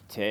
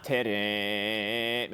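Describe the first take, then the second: First: "terem" chanted with a long held "te", quick "rem"; stretched first syllable. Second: "terem" chanted with the last syllable held long; short "te", then sing and hold "rem" in "terem"; wrongly stretched ending. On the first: Teacher showing where you stretch it out, "terem" drawn out on "te". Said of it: "That's where you stretch it out". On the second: Teacher showing what it's not, "terem" stretched on the final syllable. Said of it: "it's not terem". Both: Shown as a demonstration.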